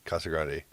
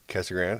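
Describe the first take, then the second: First: The name is said with Spanish pronunciation. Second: The name is said with anglicized English sounds.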